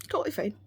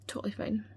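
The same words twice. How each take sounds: First: Said in the usual way. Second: Unvoiced whisper, trailing off. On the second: Real, not acted. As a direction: whisper it to yourself. Repeated ironic denial.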